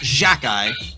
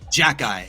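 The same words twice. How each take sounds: First: The first consonant is a soft J sound. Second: The first consonant is a hard J sound. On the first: The speaker calls it wrong. "not Jacki" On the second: The speaker calls it right. "a hard J"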